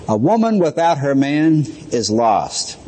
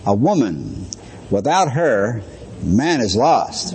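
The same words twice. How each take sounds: First: Said in the usual way. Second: "A woman" pause, "without her" pause, "man is lost" said slowly, lower and apart; pauses after woman and man. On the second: Shown as a demonstration. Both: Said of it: "you can say it this way and it means something else".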